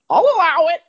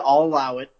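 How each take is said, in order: First: It is said in a squawky voice. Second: It is said in a less squawky voice. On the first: The speaker calls it right. "Much better. Yeah, he is kind of squawky like that" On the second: The speaker calls it wrong. "it's an uncanny impression of my brother"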